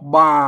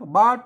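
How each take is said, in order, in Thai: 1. ออกเสียงแบบสำเนียงไทยวน เสียงต่ำ 2. ออกเสียงแบบสำเนียงไทลื้อ เสียงต่างออกไป (1) "อันสำเนียงอ่าไตยวนเพิ่นออกบาตรงเสียงเอกภาษาไทย" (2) "อันไตลือเพิ่นออกว่าบา"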